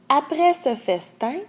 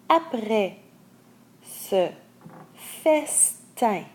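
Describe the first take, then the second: First: The phrase is read at a normal speed. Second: The phrase is read a little slowly. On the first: "à débit normal" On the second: "je les relis un peu lentement"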